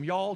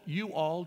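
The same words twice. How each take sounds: First: "y'all" as one loud merged syllable; Southern "y'all". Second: "you all" split into two full words; northern "you all". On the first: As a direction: punch out "y'all" in one beat. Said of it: "It goes from". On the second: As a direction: pronounce "you all" louder, word by word. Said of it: "It goes from "y'all" to "you all". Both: Shown as a demonstration.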